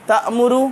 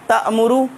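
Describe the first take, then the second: The two takes are said the same way.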